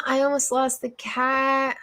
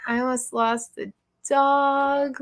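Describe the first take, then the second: First: Said in the usual way. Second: Slower, with the weight on "dog"; correcting to dog. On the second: Real, not acted. Owner correcting cat to dog for viewers, stress on "dog". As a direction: fix the slip by leaning on "dog".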